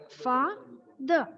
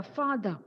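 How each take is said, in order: First: Fa and the said as two separate beats; fa, the split apart syllable by syllable. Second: Said in the usual way. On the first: Shown as a demonstration. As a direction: break father into fa and the with a pause. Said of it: "You would split it as". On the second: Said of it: "example of a very common word like".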